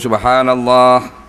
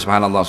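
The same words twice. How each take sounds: First: It is said slowly and clearly. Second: It is said quickly and run together.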